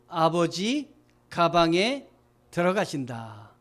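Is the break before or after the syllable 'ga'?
before. The break comes after 'abeoji', before 'gabange'. Father goes into the bag. The speaker calls it wrong. "점 하나를 딴 데 띄면"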